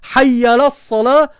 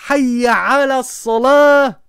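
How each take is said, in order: First: The middle word is rushed and mostly swallowed. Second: The middle word is pronounced clearly and fully. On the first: The speaker calls it wrong. "Il est passé où le ala?" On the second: The speaker calls it right. "au lieu de dire"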